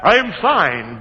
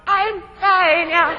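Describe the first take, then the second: First: Said in the usual way. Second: Squeezed out much higher and slow; strained squeak. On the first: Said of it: "I yell back". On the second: Retold or imitated. Hanging by his nether parts, answering his partner in a slow strained squeak. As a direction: squeak it like the rope's crushing you. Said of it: "I'm hanging from the rope by my nether parts".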